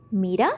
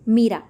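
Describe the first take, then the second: First: Name with a questioning rise; puzzled question. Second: Said in the usual way. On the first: A narrator's reading. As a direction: lift the end, doubting.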